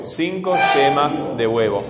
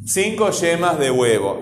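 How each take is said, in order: First: "cinco yemas", brief pause, "de huevo"; pause after yemas. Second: Said in the usual way. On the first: Shown as a demonstration. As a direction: break the phrase right after "yemas". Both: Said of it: "podríamos poner alguna pausa ahí".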